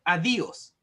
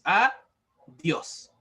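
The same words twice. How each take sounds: First: "adiós" said wrongly as a-di-ós, the i pulled apart into its own syllable; split into syllables. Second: "adiós" said with the diphthong joined, two syllables, a-diós; one-syllable diphthong. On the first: Teacher showing students the wrong split, a-di-ós. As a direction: break "adiós" into three syllables, a-di-ós, as the mistake. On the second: Teacher giving the class the right way, a-diós. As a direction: glide the i into the ó in "adiós". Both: Shown as a demonstration. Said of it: "No vamos a decir".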